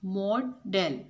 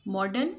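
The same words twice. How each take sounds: First: "मॉडल" split in two, mo-del; syllable by syllable. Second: Said in the usual way. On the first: Shown as a demonstration. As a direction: say "मॉडल" as two separate beats with a gap. ("मॉडल" को दो हिस्सों में तोड़कर, मॉ-डल) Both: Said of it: "two syllable है इसमें".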